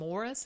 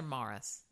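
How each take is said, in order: First: First Morris with a rounded 'or' vowel; contrasting vowel. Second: Second Morris with an open 'ah' vowel; imitated accent vowel. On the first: Shown as a demonstration. Host checking which county name she heard, contrasting pronunciation. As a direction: say Morris as MORE-iss. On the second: Host echoing co-host's county name, imitated accent vowel. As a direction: say Morris as MAR-iss. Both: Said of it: "Morris or Morris?".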